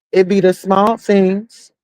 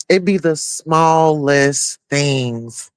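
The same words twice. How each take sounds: First: Said in the usual way. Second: "It be the smallest things" drawn out slowly, each word weighted; slow emphasis. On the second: Shown as a demonstration.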